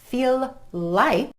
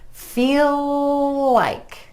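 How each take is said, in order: First: The L sound breaks between the two words. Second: One continuous L joins the two words. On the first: The speaker calls it wrong. "Instead of" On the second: The speaker calls it right. "keep that L going from the end of feel into like"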